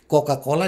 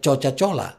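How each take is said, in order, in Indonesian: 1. Setiap C dibaca sebagai bunyi k. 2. Setiap C dibaca sebagai bunyi ch.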